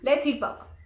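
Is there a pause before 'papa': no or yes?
no. It runs straight through without a pause. Papa is the thing to be eaten. The speaker calls it wrong. "बिना break के बोल देती हूँ"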